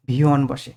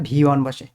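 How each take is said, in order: Both takes have the same delivery.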